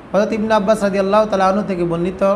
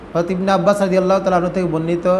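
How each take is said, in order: No difference in how they are said.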